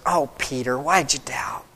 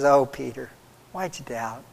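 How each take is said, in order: First: It sounds harsh and condemning. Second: It sounds warm and gentle.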